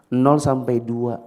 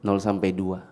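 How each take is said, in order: First: Slow and deliberate, each word spaced out; slow emphasis. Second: Said in the usual way. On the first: Shown as a demonstration. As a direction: spell out "Nol sampai dua" slowly, stressing nol. (ucapkan pelan dan tegas) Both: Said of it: "Coba ulang".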